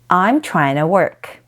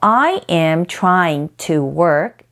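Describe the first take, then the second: First: The words are reduced and run together. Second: Every word is said fully and separately.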